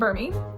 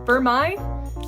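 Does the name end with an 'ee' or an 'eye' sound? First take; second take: ee; eye. First: The name ends with an 'ee' sound. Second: The name ends with an 'eye' sound. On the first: "I definitely call this one Burmy" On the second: "Is it Burmai? I hope it's not Burmai"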